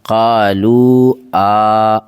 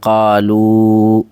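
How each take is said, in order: First: An extra separate 'aa' follows the final vowel. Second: The final vowel is one joined sound. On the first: The speaker calls it wrong. "इसको ऐसे नहीं पढ़ेंगे ... ये तरीक़ा गलत है" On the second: The speaker calls it right. "साथ में ही पढ़ा जाएगा"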